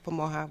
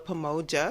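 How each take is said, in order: First: The j is said as an h sound. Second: The j is said as an English j sound.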